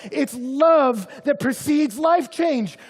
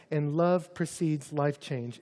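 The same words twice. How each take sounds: First: "love" stressed, slow and loud at peak; loud slow emphasis. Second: "love" stressed, slow, at normal volume; calm slow emphasis. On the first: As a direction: proclaim "love" with force. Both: Shown as a demonstration. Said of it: "this is our third point".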